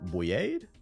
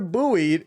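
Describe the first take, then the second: First: It is said in two syllables, sounding French. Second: It is said in one syllable, like 'boyd'. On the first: The speaker calls it wrong. "That shit sound French. I don't know how to pronounce that" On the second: The speaker calls it right. "Oh, buoy"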